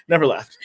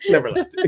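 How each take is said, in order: First: Said in the usual way. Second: "left" squeaked up high with a rising end; a comic high-pitched echo; never left in falsetto. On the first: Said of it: "repeated phrase". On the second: Shown as a demonstration. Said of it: "repeated higher".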